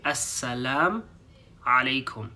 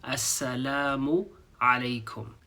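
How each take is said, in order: First: "Assalam" with no u before "alaikum"; "Assalam alaikum" clipped after salam; dropped final u. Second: "Assalamu alaikum" with the u clearly sounded; "Assalamu" ending on a clear u; full greeting. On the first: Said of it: "people don't pronounce the u at the end". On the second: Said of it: "learn how to say the full greeting properly". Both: Shown as a demonstration.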